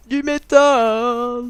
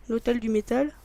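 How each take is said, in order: First: Very slow, louder drawn-out metal growl; imitating King. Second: Said in the usual way. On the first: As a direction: stretch the word like a metal singer. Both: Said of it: "comme dirait King".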